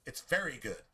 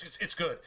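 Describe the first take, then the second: First: Very pressed firmly, good dropping away; emphatic very. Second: Said in the usual way. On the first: Shown as a demonstration. Preacher insisting to his audience, emphatic on very. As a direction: make very the word that counts. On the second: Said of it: "Not just".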